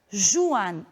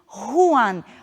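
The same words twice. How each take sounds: First: The first consonant is a soft zh sound. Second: The first consonant is a harsh throat sound. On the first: The speaker calls it wrong. "essa palavra nunca será pronunciada" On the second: The speaker calls it right. "o J da pronúncia gutural"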